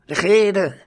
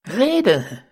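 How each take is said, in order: First: Shouted again, louder; geschrien. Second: Shouted, higher and louder; the whole gang yells the order; geschrien. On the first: Ganzer Schwarm schreit die Baronin erneut an. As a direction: yell the command once more. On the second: Ganzer Schwarm schreit die Baronin an. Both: A narrator's reading. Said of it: "schrie der ganze Schwarm".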